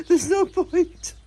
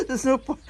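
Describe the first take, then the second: First: Slow, loud and high, breaking into a laugh; laughing emphasis. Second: Said in the usual way. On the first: Real, not acted. Telling viewers about gel nails, laughing loud and slow. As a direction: laugh it out while stressing no.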